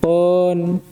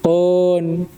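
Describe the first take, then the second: Both takes have the same delivery.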